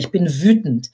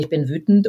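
First: It is said with audible anger. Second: It is said flatly, without feeling.

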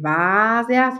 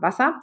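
First: The a vowel is held long. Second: The a vowel is clipped short. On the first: The speaker calls it wrong. "Ich sage ja nicht Wasser" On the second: The speaker calls it right. "sondern Wasser ... das ist ein kurzes A"

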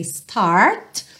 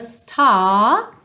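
First: The r after the vowel is clearly pronounced. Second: The r after the vowel is not pronounced. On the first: "numa pronúncia mais americana" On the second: "mas aqui então, right from the start"

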